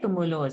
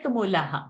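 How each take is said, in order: First: The word ends with a joined 'o' sound. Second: The word ends with an open 'aha' sound. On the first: The word sits inside a section, so it is joined. "within the pada, we don't break the sandhi. We continue and we say tumulo" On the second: The word ends a section, so the joining is broken. "if tumulo was the end of the pada, we would have said tumulaha"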